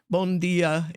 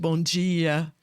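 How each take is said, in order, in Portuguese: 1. É dito com sotaque europeu. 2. É dito com sotaque brasileiro. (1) "eu mudei um pouco a pronúncia. Como bom dia" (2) "em vez de bom dia"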